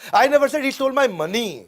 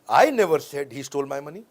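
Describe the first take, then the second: First: The stress is on "money". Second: The stress is on "I".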